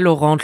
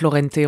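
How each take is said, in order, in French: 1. Le nom se termine sur une voyelle nasale, rien après. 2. Le nom finit avec un son de voyelle 'ay' en plus. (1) "on sait pas" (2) "c'est Laurenté normalement, c'est italien"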